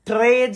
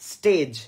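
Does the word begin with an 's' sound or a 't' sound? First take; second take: t; s. First: The word begins with a 'tr' sound. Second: The word begins with an 'st' sound. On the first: The speaker calls it wrong. "ট্রেজ না" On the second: The speaker calls it right. "না স্টেজ"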